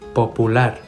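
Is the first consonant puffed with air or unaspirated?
unaspirated. The p is released with no puff of air.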